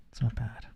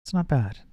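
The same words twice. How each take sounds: First: Softer, trailing repeat of It's not bad; It's not bad murmured much softer; quiet take. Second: Said in the usual way. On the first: Shown as a demonstration. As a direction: drop right down and say It's not bad softly. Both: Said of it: "I don't have to talk very loud".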